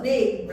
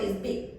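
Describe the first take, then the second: First: BIG loud and drawn out; emphatic big. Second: Said in the usual way. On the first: Shown as a demonstration. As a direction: make BIG sound huge, slow and loud. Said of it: "So when I say big". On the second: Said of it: "also I won't say".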